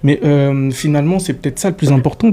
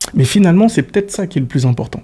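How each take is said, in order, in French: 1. Les hésitations sont remplies d'un 'euh' prolongé. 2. Les hésitations sont des pauses silencieuses, sans remplissage. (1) "ça perd en rythme, ça te donne l'air con" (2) "tu te tais"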